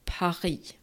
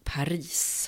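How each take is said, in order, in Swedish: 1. Det avslutande s:et lämnas tyst. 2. Det avslutande s:et uttalas tydligt. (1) "och inte Paris" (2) "Vi säger Paris"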